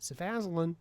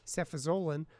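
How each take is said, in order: First: The word is said with an altered pronunciation. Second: The word is said in its standard pronunciation. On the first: The speaker calls it wrong. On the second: The speaker calls it right.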